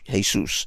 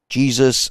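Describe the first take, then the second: First: The name is pronounced with Spanish sounds. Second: The name is pronounced with English sounds. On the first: "in in Spanish" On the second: "into English"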